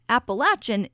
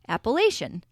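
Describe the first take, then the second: First: It is said the southern and central Appalachian way. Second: It is said the way other regions say it. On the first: This is how people in the trail's home region say it. "In the southern and central Appalachian region, Appalachian is the common pronunciation" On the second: This is how people outside that region say it. "In other areas, people tend to say Appalachian"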